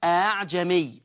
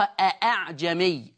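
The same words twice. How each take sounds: First: أعجمي with the second hamza softened into a long glide; eased second hamza. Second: أأعجمي with two distinct glottal stops; two full hamzas. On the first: Teacher showing students Hafs's reading, second hamza of أعجمي eased. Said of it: "عندنا تسهيل في حفص". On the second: Teacher showing the word's origin, both hamzas of أأعجمي sounded. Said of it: "أصل الكلمة دي أصلها". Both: Shown as a demonstration.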